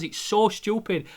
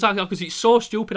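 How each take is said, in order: First: Slow, higher teary voice; tearful repeat. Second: Louder teary laugh; laughing and crying. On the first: Admitting to his girlfriend it's silly, slow and teary. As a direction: say it through tears. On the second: Admitting to his girlfriend it's silly, laughing and crying. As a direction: laugh through the tears. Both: Retold or imitated. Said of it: "I goes".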